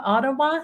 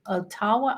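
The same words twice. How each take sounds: First: Said in the usual way. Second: Ottawa as "oh-TAH-wa", stressed on the middle; Chilean-accented slip. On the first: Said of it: "Sorry, sometimes my Chilean accent". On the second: Real, not acted. Host misreading a viewer's city in chat, Ottawa mispronounced as "oh-TAH-wa". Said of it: "sometimes my Chilean accent gets".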